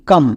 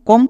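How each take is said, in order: First: The vowel sounds like the one in cup. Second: The vowel sounds like the one in hot. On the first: The speaker calls it right. "এর জন্য আমরা উচ্চারণ করব কাম" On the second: The speaker calls it wrong. "কম না"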